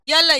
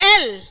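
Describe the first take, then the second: First: The letter name starts with a y sound. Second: The letter name starts with a plain vowel. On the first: The speaker calls it wrong. "ये गलत था" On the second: The speaker calls it right. "Real pronunciation तो ये है"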